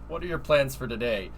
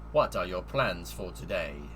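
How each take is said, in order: First: It is read in a normal speaking voice. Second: It is read in a funny put-on voice. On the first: The speaker calls it wrong. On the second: The speaker calls it right.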